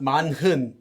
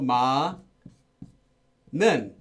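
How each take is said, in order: First: The middle has an h sound. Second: The middle has no h sound. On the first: The speaker calls it wrong. "not manhun" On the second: The speaker calls it right. "It's also ma nun"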